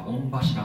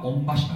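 First: 御柱 said with local Suwa dialect pitch accent. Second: 御柱 said with standard Tokyo pitch accent; standard Japanese accent. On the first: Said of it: "諏訪弁では御柱っていうんです". (御柱を諏訪弁のアクセントで) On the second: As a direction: say 御柱 the standard way, as a textbook would. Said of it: "標準語では御柱っていうんですね". (御柱を標準語のアクセントで) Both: Shown as a demonstration.

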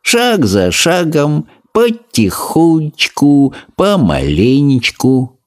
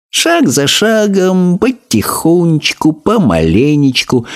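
First: Slow, patient tortoise motto; slow creaky tortoise. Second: Higher, slow tortoise motto; slow creaky tortoise. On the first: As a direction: plod through it step by step. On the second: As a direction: repeat the motto as a habit. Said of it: "привычно повторила Транквилла". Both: A narrator's reading.

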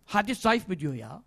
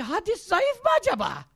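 First: Low, soft scornful echo; weary scorn, dropped low; dismissive disbelief. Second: High-pitched mock questioning; mock-doubtful query, voice lifted high; mocking the doubter. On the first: Retold or imitated. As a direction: repeat it under your voice, dismissively. Scornful repeat of the doubter's question. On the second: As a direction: imitate a silly sceptic, pitched high. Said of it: "Hoca bir şey anlatıyor. Diyor ki".

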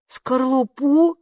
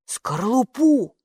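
First: «Скорлупу?» drawn out slowly with a rising doubtful tune; doubtful echo. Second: Drawn out slowly, falling; slow finishing word. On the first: Oscar doubts Kapo's eggshell guess, slow rising «Скорлупу?». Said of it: "с сомнением проговорил Оскар". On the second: Kapo finishes the guess about the eggshell, slowly. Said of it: "закончил Капо". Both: A narrator's reading.

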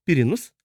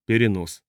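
First: «Перенос» as a question, pitch rising at the end; puzzled question. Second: «Перенос» as a plain statement, falling at the end; stated answer. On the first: Asking what the strange word means, «Перенос» rising. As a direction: ask «Перенос» back with a clear rise. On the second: Answering what the red flash is, «Перенос» falling. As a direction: state «Перенос» with a closing fall. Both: A narrator's reading.

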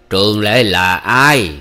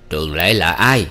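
First: "Trường Lệ là ai" very slow and loud, word by word; stressing each word. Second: Said in the usual way. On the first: Acted. Uncle repeats his demand, "Trường Lệ là ai" stressed word by word. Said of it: "hỏi lại và gằn từng tiếng".

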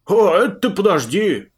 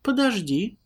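First: Loud gruff bark. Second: Startled, high stop; taken aback. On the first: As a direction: snap it back loudly. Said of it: "даже рявкнул на неё Пузан". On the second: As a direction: pull up short, startled. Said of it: "опешила Лара". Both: Acted.

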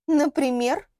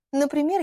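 First: Rising, higher-pitched questioning word; challenging question. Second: НАПРИМЕР as a higher-pitched opener, no question; leading into example. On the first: Лилиана challenges the girl's claim to know much, questioning. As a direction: ask НАПРИМЕР as a demand for proof. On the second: Girl starts telling what she knows, assured lead-in. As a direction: open the list of evidence with НАПРИМЕР. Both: Acted.

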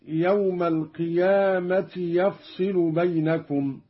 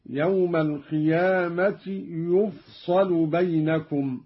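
First: Said in the usual way. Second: يفصل recited "yufsalu", u after the y and a after the s; passive vowelling. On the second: Shown as a demonstration. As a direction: give يفصل damma on ya, fatha on sad. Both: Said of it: "بضم الياء وإسكان الفاء وفتح الصاد".

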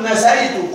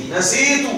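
First: Teacher shows the mistaken نسيت said with ay, nasayt; wrong form nasaytu. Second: Teacher gives نسيت with a long ī, nasītu, a touch higher; correct nasītu. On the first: المعلم يمثل الخطأ نَسَيْتُ. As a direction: demo of the error. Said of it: "لا تقل". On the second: المعلم ينطق الصواب نَسِيتُ. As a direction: model the right form. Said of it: "قل". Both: Shown as a demonstration.

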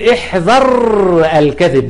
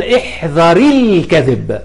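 First: احذر held on a long bare r, apart from الكذب; underlying sukun. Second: احذر joined as "ihdhari-l" to الكذب, slowly; linking kasra. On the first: Teacher showing the original form, احذر ending on r. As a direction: slowly close احذر on a rolled r, then restart. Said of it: "واحذر أساسا عليها سكون". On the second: Teacher avoiding two sukuns, احذر linked with an i. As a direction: add an i to احذر and glide into a held l. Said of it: "اشتغاله بحركة الكسر". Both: Shown as a demonstration.

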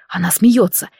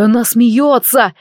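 First: Said in the usual way. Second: Протяжный, умеренный крик радости; воскликни протяжно, не веря счастью. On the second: A narrator's reading. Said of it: "закричал он". (радостный возглас)

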